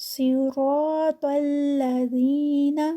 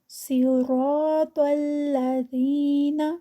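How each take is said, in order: The two takes are said the same way.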